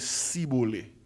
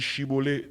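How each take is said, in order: First: The word begins with an s sound. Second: The word begins with a sh sound. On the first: A member of the rival group said it. The speaker calls it wrong. "nèg Ephraïmite yo dit Sibole" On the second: A member of one group said it. The speaker calls it right. "nèg Galade yo dit Chibole"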